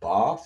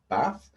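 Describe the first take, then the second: First: It is said in a southern English accent. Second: It is said in a northern English accent.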